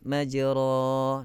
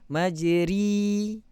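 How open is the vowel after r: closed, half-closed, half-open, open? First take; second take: open; closed. First: The vowel after r is a fully open a. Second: The vowel after r is a closed i sound. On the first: "naikkan atas" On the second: "Kalau kasrah majri"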